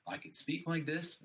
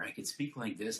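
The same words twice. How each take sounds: First: Higher, open-chested voice. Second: Slumped, cramped voice; hunched voice. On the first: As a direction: stand tall and speak out. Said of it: "my voice gonna be affected". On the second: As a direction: speak with the chest closed in. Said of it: "my lung capacity is not as good". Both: Shown as a demonstration.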